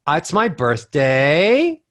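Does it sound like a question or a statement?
question. The pitch scoops upward so it sounds like a question. The speaker sounds unsure of what they say. The speaker calls it wrong. "So that scoop is what is bad"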